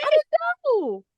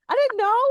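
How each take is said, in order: First: Very high, slow, exaggerated protest; drawn-out squeaky protest. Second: Playful defensive protest, pitched high. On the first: Nanny insisting on her innocence, drawn-out high squeal. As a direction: stretch it out in a squeal of self-defence. Repeats the defence, more exaggerated. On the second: Nanny defending the packed baby bag, high protest. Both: Real, not acted.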